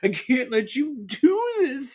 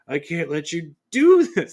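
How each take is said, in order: First: It is said in a put-on character voice. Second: It is said in the speaker's normal voice. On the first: The speaker calls it right. "I need to do my Michael voice" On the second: The speaker calls it wrong. "Sorry, I forgot"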